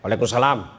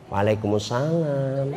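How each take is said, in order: First: The voice is firm, brisk and businesslike. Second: The voice is soft, lilting and drawn out.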